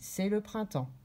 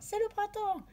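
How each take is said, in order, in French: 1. La voix descend à la fin. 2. La voix reste haute à la fin. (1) "On baisse notre voix et ça dit « stop »" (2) "On ne dit pas"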